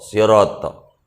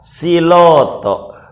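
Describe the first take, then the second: First: The word is said with a real r sound. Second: The r sound is replaced by an l sound. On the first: The speaker calls it right. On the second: The speaker calls it wrong.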